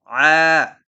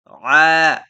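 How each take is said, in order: No difference in how they are said.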